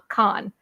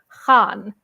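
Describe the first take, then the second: First: It begins with a plain hard k sound. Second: It begins with a rough, throaty sound. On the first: The speaker calls it wrong. "not Khan" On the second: The speaker calls it right. "my last name is actually Khan"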